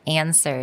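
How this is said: It is said with an American vowel. "a very American way of saying it"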